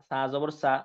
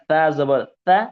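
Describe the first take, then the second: First: The consonant is a hissing 's' sound. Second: The consonant is a soft 'th' sound. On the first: The speaker calls it wrong. "নরম করে না বলে সাই বলে" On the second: The speaker calls it right. "নরম করে আলতো করে বলতে হবে।"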